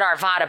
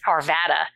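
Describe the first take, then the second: First: The name is pronounced the way an outsider says it. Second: The name is pronounced the way locals say it. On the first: The person saying it is new to the area. The speaker calls it wrong. "she pronounced the town name wrong" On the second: The person saying it lives in the area. The speaker calls it right. "but if you live there, it's Arvada"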